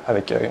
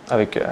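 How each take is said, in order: Both takes have the same delivery.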